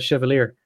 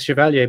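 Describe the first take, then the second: First: The name is pronounced in an Americanized way. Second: The name is pronounced in a French way. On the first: The man was American and may have said it this way. "He's American, so he might actually have pronounced that Chevalier" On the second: The name is read as a French word. "I'm just reading it as Chevalier because that's a French word"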